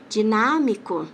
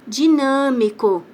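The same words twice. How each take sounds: First: "Dinâmico" com A aberto, como "dinámico"; som aberto. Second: "dinâmico" com NÂ fechado e nasal; som nasal. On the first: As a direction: abra o A de "Dinâmico", sem nasalizar. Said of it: "ele vai virar a". ("Dinâmico" com NÁ oral) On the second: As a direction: feche o A de "dinâmico" pelo nariz, devagar. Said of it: "esse an que eu falo". ("dinâmico" com som de "an" na tônica) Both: Shown as a demonstration.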